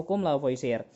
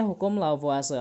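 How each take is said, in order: First: "Lavoisier" said as la-vo-i-si-er; spelling reading of "Lavoisier", la-vo-i-si-er; read as spelled. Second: "Lavoisier" said as la-vwa-se; three syllables in "Lavoisier", la-vwa-se; usual spoken pronunciation. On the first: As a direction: sound out all the written vowels in "Lavoisier", la-vo-i-si-er. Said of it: "Meskipun tulisannya Lavoisier". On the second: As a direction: say "Lavoisier" French-style, la-VWA-se. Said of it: "biasanya orang bacanya itu Lavoisier". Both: Shown as a demonstration.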